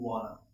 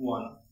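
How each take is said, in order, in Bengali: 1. শব্দ দুটি মিশে একটি সংক্ষিপ্ত শব্দে পরিণত হয়। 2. শব্দ দুটি মিশে একটি সংক্ষিপ্ত শব্দে পরিণত হয়।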